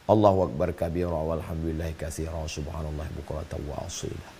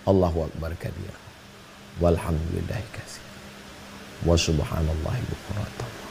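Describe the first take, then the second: First: It is said quickly in a single breath. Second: It is said slowly and calmly. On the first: "ada yang satu nafas" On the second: "Tapi ada orang yang pelan"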